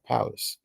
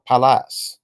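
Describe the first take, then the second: First: Pallas as PAL-us, with a reduced second vowel; alternative pronunciation. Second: Pallas with a full "a" in both syllables, pal-LASS; alternative pronunciation. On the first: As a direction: say Pallas softly as PAL-us, weak ending. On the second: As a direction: Pallas ending on a clear, rising "lass". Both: Shown as a demonstration. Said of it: "or Pallas".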